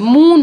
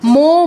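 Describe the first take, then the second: First: The syllable ends in a 'u' vowel. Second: The syllable ends in an 'o' vowel. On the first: The speaker calls it wrong. "মু নয়" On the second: The speaker calls it right. "এটাকে মো মো বলতে হবে"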